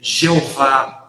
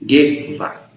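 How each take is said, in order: First: The name begins with a 'zh' sound. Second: The name begins with a 'y' sound. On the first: This is the Portuguese-adapted form. "a forma a portuguesada" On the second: This is the vocalization given by the Masoretes. "vocalizaram ela, é, essa, essa palavra como Yer, Yevá"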